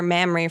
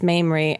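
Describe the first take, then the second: First: The name sounds like the word mammary. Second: The name does not sound like mammary. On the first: The speaker calls it wrong. "I called her Mamrie for like the first year" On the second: The speaker calls it right. "she didn't correct me until like another friend in a bar was like, you know, it's Mamrie"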